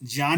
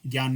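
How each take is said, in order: First: The opening cluster is the conjunct jña sound. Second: The opening cluster is the common gya sound. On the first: The speaker calls it right. "शुद्ध उच्चारण क्या होगा, ज्ञान ही होगा" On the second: The speaker calls it wrong. "ज्ञान नहीं होगा"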